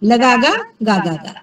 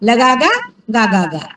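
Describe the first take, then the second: The two takes are said the same way.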